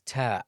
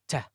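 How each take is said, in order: First: The t is crisp without an audible breath release. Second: The t has an added breathy hiss after it. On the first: The speaker calls it right. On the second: The speaker calls it wrong.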